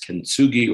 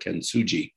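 First: The g is said as a hard g. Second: The g is said as a soft g. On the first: "I don't know whether the G is hard or soft" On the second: "probably a soft G"

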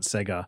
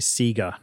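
First: Sega is said a non-Australian way. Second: Sega is said the Australian way. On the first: "not Sega" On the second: "in Australia we say Sega"

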